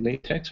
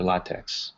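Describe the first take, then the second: First: LaTeX with LAY as first syllable; LaTeX opening on a long A, as in "lay"; first pronunciation option. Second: LaTeX with LAH as first syllable; LaTeX opening on an open "ah" vowel; alternative pronunciation. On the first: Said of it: "is it LaTeX or LaTeX". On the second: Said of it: "I like the Spanish pronunciation". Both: Shown as a demonstration.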